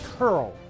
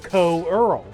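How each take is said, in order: First: It is said just like the word 'curl'. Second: It is said unlike the plain word 'curl'. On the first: The speaker calls it right. "it should be pronounced Curl" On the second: The speaker calls it wrong. "As a kid, I always said Coeurl, because it's spelled C O E U R L"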